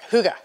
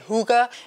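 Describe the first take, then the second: First: The word is said quickly and clipped. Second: The word is said slowly and drawn out. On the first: The speaker calls it right. "no, it's faster. So it's like hygge" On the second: The speaker calls it wrong. "I was saying hygge"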